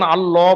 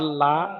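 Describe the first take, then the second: First: The L is thick, said with rounded lips. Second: The L is thin, said with an open mouth. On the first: "বলে মুখ গোল হয়েছিল" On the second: "বলে মুখ বড় হয়েছিল"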